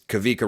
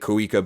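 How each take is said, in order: First: The middle consonant is a v sound. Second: The middle consonant is a w sound. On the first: The speaker calls it right. "but it's Kavika Rogers" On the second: The speaker calls it wrong. "I was saying it Kawika"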